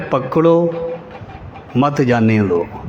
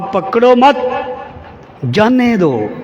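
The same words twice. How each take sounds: First: The pause comes after pakdo. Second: The pause comes after mat.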